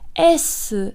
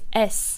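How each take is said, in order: First: The letter is said as Japanese 'esu'. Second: The letter is said as one English syllable. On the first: The speaker calls it right. "We say S" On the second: The speaker calls it wrong. "we don't say just S"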